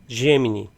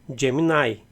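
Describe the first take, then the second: First: It is pronounced with Portuguese sounds. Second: It is pronounced with English sounds. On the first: "numa pronúncia literal do que está escrito" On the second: "em inglês"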